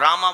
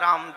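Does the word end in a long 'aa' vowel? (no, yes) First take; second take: yes; no. First: The word ends with a long 'aa' vowel. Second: The word ends without a final vowel. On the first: The speaker calls it wrong. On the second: The speaker calls it right.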